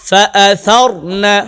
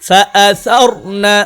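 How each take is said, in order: Both takes have the same delivery.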